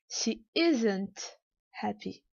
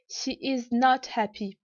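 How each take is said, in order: First: Is and not merge into one word. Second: All words are said in full. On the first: "ou bien" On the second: "la forme négative pleine"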